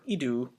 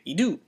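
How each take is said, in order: First: The pitch does not rise on the word. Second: The pitch rises upward on the word. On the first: The speaker calls it wrong. "instead of like idu" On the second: The speaker calls it right. "We have to say idu"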